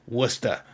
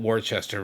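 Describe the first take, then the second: First: "Worcester" as two syllables, WUSS-tuh; R-less "Worcester", ending in "tuh"; local Massachusetts pronunciation. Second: "Worcester" said as WOR-chess-ter, R's sounded; three-syllable "Worcester" with a CH in the middle; spelling pronunciation. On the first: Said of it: "that's how we say things". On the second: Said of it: "of course, it's spelled". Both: Shown as a demonstration.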